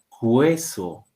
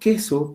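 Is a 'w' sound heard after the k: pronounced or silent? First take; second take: pronounced; silent. First: A w sound follows the k sound. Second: No w sound follows the k sound. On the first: The speaker calls it wrong. "no estoy pronunciando la palabra cueso" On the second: The speaker calls it right. "es mudo"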